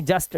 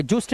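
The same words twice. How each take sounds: First: जस्ट with a short "uh"; correct pronunciation. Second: जुस्ट with an "oo" vowel; wrong pronunciation. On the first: Teacher showing the rule, जस्ट with short "a". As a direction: say जस्ट rhyming with "must". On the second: Teacher warning pupils, जुस्ट misread with "oo". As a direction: say जुस्ट as "joost". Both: Shown as a demonstration. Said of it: "जुस्ट नहीं जस्ट".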